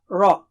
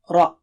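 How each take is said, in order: First: The r sounds high and thin. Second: The r sounds deep and thick. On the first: The speaker calls it wrong. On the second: The speaker calls it right.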